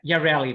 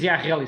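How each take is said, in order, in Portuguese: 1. É pronunciado à inglesa. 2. É pronunciado à portuguesa. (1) "se calhar os ingleses dizem Yarreli" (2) "Nós dizemos Yarreli"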